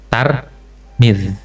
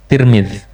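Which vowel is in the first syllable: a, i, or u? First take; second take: a; i. First: The first syllable has the vowel a. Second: The first syllable has the vowel i. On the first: This is how people of that city say it. "fathut ta wa kasril mim" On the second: This is how the speaker knew it from long ago. "benar-benar kasrah ta dan mim"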